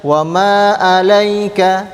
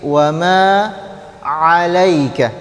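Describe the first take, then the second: First: Slow chant, "'alaika" opening on a plain glottal "a"; ain read as hamzah. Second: "'alaika" opening on an ain squeezed from mid-throat; proper ain. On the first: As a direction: start "'alaika" like hamzah, no throat constriction. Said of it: "disamakan dengan huruf hamzah". ("'alaika" dibaca dengan hamzah) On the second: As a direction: tighten the middle throat to begin "'alaika", drawn out. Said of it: "Di sini huruf ain". ("'alaika" dengan ain dari tengah tenggorokan) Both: Shown as a demonstration.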